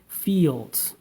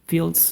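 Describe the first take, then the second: First: The vowel is held long. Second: The vowel is cut very short. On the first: The speaker calls it right. "a single vowel sound that that sounds uh, extended" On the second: The speaker calls it wrong. "making it like very short also would will uh, have like uh, ... different sound"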